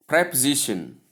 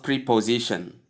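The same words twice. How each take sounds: First: "preposition" as prep-uh-ZISH-un; correct preposition. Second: "preposition" as pree-po-ZISH-un; mispronounced preposition. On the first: Teacher modelling word number four, preposition pronounced with "prep". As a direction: start "preposition" with a short "prep". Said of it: "not preposition". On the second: Teacher showing what not to say, preposition mispronounced with "pree". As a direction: start "preposition" with a long "pree". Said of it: "as most people call it". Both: Shown as a demonstration.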